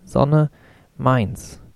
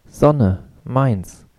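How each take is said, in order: First: High ringing call. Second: Put-on angry child's scream. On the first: Toddler claiming the sun square, high insistent cry. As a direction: insist like a small child owning the sun. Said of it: "rief er mit hoher, tönender Stimme". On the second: Toddler shouting after being carried out of the sun, angry cry. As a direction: scream it in a tantrum, trembling. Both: A narrator's reading.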